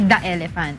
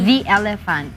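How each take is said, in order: First: The word 'the' is said like 'thuh'. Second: The word 'the' is said like 'thee'. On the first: The speaker calls it wrong. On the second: The speaker calls it right. "ang pagkasunod niya is vowel, dapat V"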